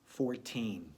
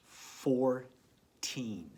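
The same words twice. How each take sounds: First: Said in the usual way. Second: Fourteen said louder, both parts stretched. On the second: Shown as a demonstration. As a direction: say Fourteen out loud and clear. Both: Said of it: "Has two sounds in the first part".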